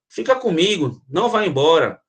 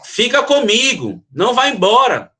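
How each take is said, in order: First: It is said in a calm, normal tone. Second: It is said loudly, as if shouting.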